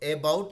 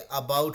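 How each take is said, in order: First: The first vowel is a clear 'eh' sound. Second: The first vowel is a short 'uh' sound. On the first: The speaker calls it wrong. "अबाउट नहीं होके" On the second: The speaker calls it right. "अबाउट होता है"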